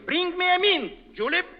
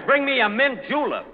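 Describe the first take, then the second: First: "Bring me a mint, Julep", breaking after "mint"; misplaced pause. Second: "mint julep" run together as one drink; no break between "mint" and "julep"; correct phrasing. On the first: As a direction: read "Julep" as the name of the person addressed. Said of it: "Look, it says right here". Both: Shown as a demonstration.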